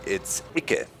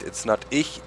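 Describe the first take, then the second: First: Berlin Icke for ich, unvoiced; Berlin dialect. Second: Said in the usual way. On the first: Shown as a demonstration. Berlin dialect demo for the viewers. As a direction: say Icke the Berlin way, breathy and light. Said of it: "But with the dialect".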